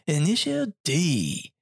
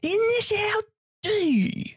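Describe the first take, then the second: First: The voice sounds flat and uninvolved. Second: The voice sounds intense and heavily inflected. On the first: The announcer does not seem to care. "he doesn't seem too involved" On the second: The announcer suddenly seems deeply into it. "what happened to him on break?"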